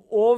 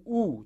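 First: "او" said as "ov", vav sounded as v; consonantal vav demo. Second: "او" said as a pure long "u"; long vowel demo. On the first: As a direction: say "او" with a v at the end, the form to avoid. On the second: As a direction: say "او" as one long oo, no v. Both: Shown as a demonstration.

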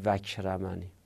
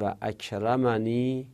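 First: وکرمنی merged as "vakramani"; hamza wrongly dropped. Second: و اکرمنی with a separate "a" starting اکرمنی; hamza pronounced. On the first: Teacher showing what not to say, وکرمنی with the hamza swallowed. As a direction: run و straight into the k in وکرمنی, no second "a". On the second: Teacher showing the correct form, hamza sounded in و اکرمنی. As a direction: say "va akramani", keeping the hamza after و. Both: Shown as a demonstration.

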